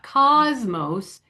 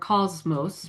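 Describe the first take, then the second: First: The O vowel is said with unrounded lips. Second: The O vowel is said with rounded lips. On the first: The speaker calls it wrong. "it's not cosmos" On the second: The speaker calls it right. "it's cosmos or cosmos"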